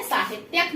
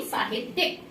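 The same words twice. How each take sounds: First: "साहित्यक" ending in tyak; wrong ending. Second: "साहित्यिक" ending in tyik; low, soft "साहित्यिक" with i in the ending; corrected ending. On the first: Teacher shows the mistake, "साहित्यक" ending tyak. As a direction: say "साहित्यक" with a for the last i. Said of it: "नहीं". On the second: Teacher corrects students, "साहित्यिक" ending tyik. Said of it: "साहित्यक नहीं". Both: Shown as a demonstration.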